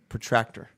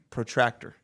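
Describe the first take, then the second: The two takes are said the same way.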